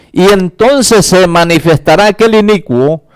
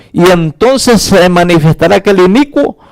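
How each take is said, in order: Both takes have the same delivery.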